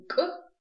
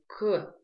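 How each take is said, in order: First: «к» отрывисто и высоко, без выдоха; резко разомкни связки на «к», без воздуха; к без придыхания. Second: «к» с заметным выдохом; произнеси «к», выпуская воздух следом; к с придыханием. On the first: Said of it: "отказываемся от этого придыхания". (обрубленное «к» без придыхания) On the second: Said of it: "мы произносим с придыханием". («к» с придыханием) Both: Shown as a demonstration.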